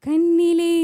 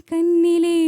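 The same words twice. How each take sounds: The two takes are said the same way.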